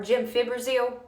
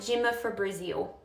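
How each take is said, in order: First: The drug name is said in its standard form. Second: The drug name is said in a garbled form. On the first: The speaker calls it right. "this word is pronounced gemfibrozil" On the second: The speaker calls it wrong. "I would call it gemifibrizil. Ain't that funny?"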